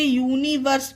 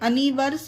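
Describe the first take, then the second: First: The word begins with a 'you' sound. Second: The word begins with a short 'uh' sound. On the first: The speaker calls it right. "इसे यूनिवर्स पढ़ेंगे" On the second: The speaker calls it wrong. "इसे अनिवर्स नहीं"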